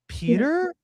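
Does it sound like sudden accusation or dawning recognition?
recognition. It sounds like a soft, questioning recognition. A buried memory of the person is surfacing. The speaker calls it right. "He was like, "Peter?" Like, something unlocked in him"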